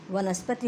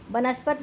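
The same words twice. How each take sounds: First: वनस्पति with v and a final "ti"; correct form. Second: वनस्पत cut off at t, no final i; wrong form. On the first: Teacher correcting the error, वनस्पति with final i. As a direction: say वनस्पति with its last i sounded. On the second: Teacher citing the error, वनस्पत lacking final i. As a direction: say वनस्पत without the last vowel. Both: Shown as a demonstration. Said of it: "नहीं बल्कि".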